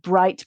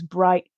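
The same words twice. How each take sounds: First: The t is fully released. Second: The t is glottalized or dropped.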